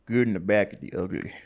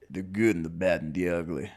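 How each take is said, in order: First: Cowboy voice. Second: A second go at a cowboy. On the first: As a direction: say it like a Western cowboy. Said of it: "That was my cowboy voice". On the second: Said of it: "A little better". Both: Shown as a demonstration.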